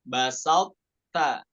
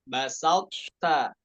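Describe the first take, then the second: No difference in how they are said.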